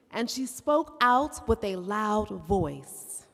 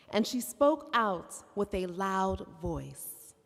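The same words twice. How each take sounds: First: Slow and louder, projecting the call; raised voice. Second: Slow, deliberate call for the audience; slow call line. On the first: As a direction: lift the voice to carry. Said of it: "you raise your voice". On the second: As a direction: lead the call, slow and clear. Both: Shown as a demonstration.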